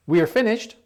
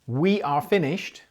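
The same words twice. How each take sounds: First: "We are finished" higher and louder, rising at the end; rising confirmation on "finished"; confirming rise. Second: Said in the usual way. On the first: Shown as a demonstration. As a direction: check that you're right with a rise on "finished". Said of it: "it kinda suggests you think you're finished". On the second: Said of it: "if you change the order of that question".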